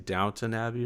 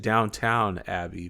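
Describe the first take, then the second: First: The first word ends with a short 'ton' sound. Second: The first word ends with a full 'town' sound. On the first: This is the way the British say it. "they say Downton Abbey" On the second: This is the way people instinctively say it. "you want to say Downtown Abbey"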